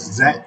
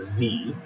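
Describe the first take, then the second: First: The letter is said the British way, zed. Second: The letter is said the American way, zee.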